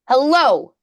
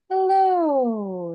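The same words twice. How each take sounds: First: The voice is firm and pressed, without breathiness. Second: The voice is light and breathy, with airflow. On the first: "that's a more pressurized closure" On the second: "kind of windy. That's a really light pressure. It's airy"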